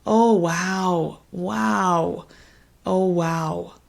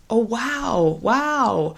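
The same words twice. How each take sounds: First: Sympathetic oh wow. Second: Bright, lifted oh wow; positive surprise. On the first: Tutor shows a sad response to a struggling patient. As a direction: feel the weight of their struggle. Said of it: "expressed in a more negative tone". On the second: Tutor shows a happy response to the patient's news. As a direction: sound pleased by good news. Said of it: "if it's more positive". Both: Shown as a demonstration.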